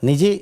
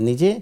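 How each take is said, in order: Both takes have the same delivery.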